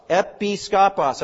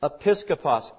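First: "Episkopos" slowly broken as EPI, SKOPOS; split into parts. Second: Said in the usual way. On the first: Shown as a demonstration. Teacher showing the compound word, "Episkopos" slowly split in two.

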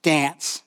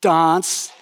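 First: "dance" with a flat short a, as in cat; American dance. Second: "dance" with a broad open ah, like dahns; Kiwi dance. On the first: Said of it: "when I ask a girl for a dance". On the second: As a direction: say "dance" the New Zealand way, dahns. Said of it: "it's like dance". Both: Shown as a demonstration.

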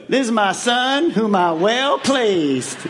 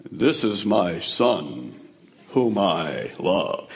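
First: Slow Southern Georgia drawl, lightly done; a folksy Georgia accent as the voice of God. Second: Very low, slow, booming voice of God; vast deep cosmic voice. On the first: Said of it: "what if God's from Georgia". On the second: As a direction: speak slowly from the heavens, huge and deep. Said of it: "what do you think God's voice sounded like". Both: Pretend.

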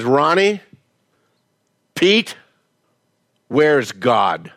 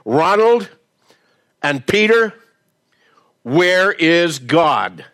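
First: A hint of a stern pastor; stern pastor question. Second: Most demanding voice. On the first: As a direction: ask it slowly like a stern pastor. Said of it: "Pastor Jackson looks at these two boys". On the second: Retold or imitated. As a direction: boom it down at the boys like a towering pastor. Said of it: "with his most demanding voice".

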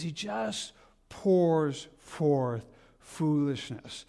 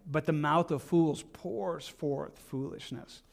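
First: Drawn-out preacher emphasis; very slow emphasis. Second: Reading out fools and foolishness slowly and heavily; slow solemn verse reading; slow weighty reading. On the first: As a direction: draw out pours forth foolishness very slowly. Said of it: "he says". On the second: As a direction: lean on the scripture word by word. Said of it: "It says". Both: Shown as a demonstration.

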